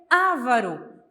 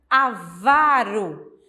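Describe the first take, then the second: First: The stress is on the first syllable. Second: The stress is on the second syllable. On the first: The speaker calls it wrong. "como as pessoas pronunciam" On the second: The speaker calls it right. "uma palavra paroxítona"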